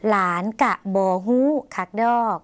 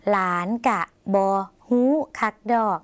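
First: "หลานกะบอฮู้คักดอก" read clearly in short word groups; careful model reading. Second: "หลานกะบอฮู้คักดอก" broken into smaller pieces with pauses; more separated reading. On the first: Teacher modelling a new Lao sentence for viewers, careful reading in short groups. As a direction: set out "หลาน", "กะบอฮู้", "คักดอก" as distinct parts. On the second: Teacher repeating the Lao sentence for practice, spaced out piece by piece. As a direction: pause after "บอ", then give "ฮู้", "คัก", "ดอก" one by one. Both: Shown as a demonstration. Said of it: "แยกส่วนต่างๆ ของประโยค".

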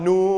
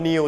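First: "new" said as "noo", vowel held long. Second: "new" said as "niw", with an ee glide into w; common mispronunciation. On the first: Teacher teaching the double-o sound, "new" as a long "noo". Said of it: "จะออกเสียงเป็นเสียงอูนะครับ". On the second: Teacher quoting students' usual mistake, "new" as "niw". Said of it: "อาจจะชอบออกเสียงผิดนะครับ อ่านว่า". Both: Shown as a demonstration.

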